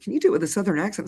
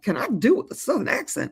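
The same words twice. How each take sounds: First: Said in the usual way. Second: Playful put-on Southern accent. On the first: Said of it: "They said, "Can you do it".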